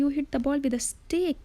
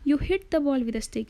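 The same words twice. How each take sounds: First: The stress is on "stick". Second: The stress is on "hit".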